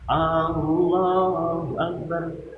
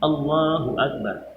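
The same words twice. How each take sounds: First: The opening vowel 'A' is drawn out long. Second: The opening vowel is short; the lengthening comes later. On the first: It asks whether God is greatest. The speaker calls it wrong. "Yang panjang bukan di Allahnya, Allahnya, tapi di A-nya" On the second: It states that God is greatest. The speaker calls it right. "Yang panjang hanya di Allah"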